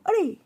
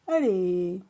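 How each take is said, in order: First: It sounds startled and sharp. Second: It sounds reluctant and disappointed.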